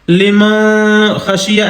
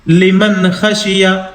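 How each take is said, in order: First: The n is hidden with a light nasal sound. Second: The n is pronounced clearly without nasal holding. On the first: The speaker calls it wrong. "ऐसे नहीं पढ़ेंगे ... इसको कहते हैं इख्फा करना, यानी हल्के से नाक में आवाज को छिपा करके" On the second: The speaker calls it right. "जाहिर करके पढ़ेंगे, इजहार करके"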